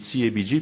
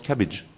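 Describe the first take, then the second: First: It is spelled out letter by letter. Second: It is said as one word, cabbage. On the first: The speaker calls it wrong. "si vous dites CABG, personne ne vous comprendra" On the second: The speaker calls it right. "ça se prononce cabbage"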